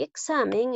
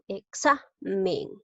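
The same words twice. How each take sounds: First: Said in the usual way. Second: "Examen" slowed, weight on XA; "Examen" split after its stressed XA. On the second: Shown as a demonstration. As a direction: say e-XA, pause, men for "Examen". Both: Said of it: "en la xa".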